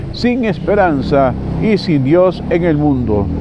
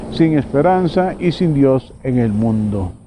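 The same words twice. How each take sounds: No difference in how they are said.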